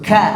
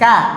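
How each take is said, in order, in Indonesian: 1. Bunyi k dilepas dengan hembusan napas. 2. Bunyi k dilepas tanpa hembusan napas. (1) "itu ada hembusannya" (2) "Itu belum hembus"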